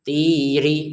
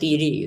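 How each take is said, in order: First: The syllables are cut apart with a break. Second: The syllables run together without a break. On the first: The speaker calls it wrong. "tinya ini terputus" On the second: The speaker calls it right. "Harusnya kan langsung saja"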